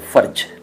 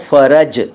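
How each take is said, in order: First: No vowel is heard between 'r' and 'j'. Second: A vowel is heard between 'r' and 'j'. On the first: It means something else entirely. "अगर आप इसको फ़र्ज कह देते हैं" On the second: It means ease or comfort. "अभी मैं फ़र्ज नहीं कह रहा हूँ, अभी मैं कह रहा हूँ फ़रज"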